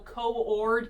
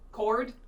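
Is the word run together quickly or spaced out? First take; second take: spaced out; run together. First: The word is spaced out into two parts. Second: The word is run together quickly into one. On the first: "pace it out" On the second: "I talk a little fast"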